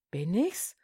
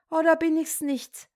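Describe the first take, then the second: First: Tief ansetzen, mit Frage im Tonfall nach oben; grübelnd, sich selbst prüfend; fragend zu sich selbst. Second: „oder“ hoch angesetzt, dann fallend; höher nachgefragt. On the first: (leise fragend, „Bin ich's“ steigend) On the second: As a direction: die Gegenfrage hell und höher stellen. (höher nachhakend, „oder“ betont) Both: Acted. Katerlieschen fragt sich selbst.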